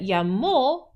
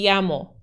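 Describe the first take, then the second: First: The stress falls on the last syllable. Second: The stress falls on the first syllable. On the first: He called. "that llamó is he called" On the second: I am called. "what if we forgot that accent mark?"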